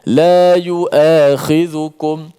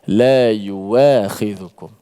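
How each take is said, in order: First: The middle consonant is a glottal stop. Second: The middle consonant is a w sound. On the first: This is the reading of one's own tradition. "riwayat kita baca dengan hamzah" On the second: This is the reading of another tradition. "ada riwayat lain yang baca dengan waw"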